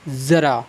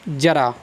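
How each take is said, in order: First: The word begins with a z sound. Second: The word begins with a j sound. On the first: "मैंने लिखा नुक्ता बिंदी के साथ" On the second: "पहले मैं इसका उच्चारण करता हूँ"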